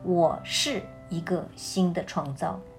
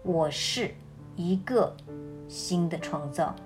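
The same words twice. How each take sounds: First: The stress is on the word 是. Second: The stress is on the word 一个.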